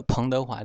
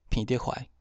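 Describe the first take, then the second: First: Said in the usual way. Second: 彭德怀 said the Hokkien way, 彭 as nasal "phinn"; Hokkien reading. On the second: Shown as a demonstration. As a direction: say 彭德怀 in Hokkien, 彭 without final ng. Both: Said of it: "彭念成平".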